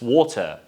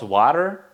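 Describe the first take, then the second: First: The first vowel is a rounded 'o' sound. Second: The first vowel is an open 'a' sound. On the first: The speaker calls it right. "It's W plus A. It's gonna be O sound" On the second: The speaker calls it wrong. "It's not water"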